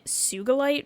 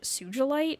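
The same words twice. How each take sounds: First: The G is pronounced hard, as in 'go'. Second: The G is pronounced soft, as in 'gem'. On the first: "I'm going to be saying Sugilite for this character" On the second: "some people pronounce it Sugilite or something like that"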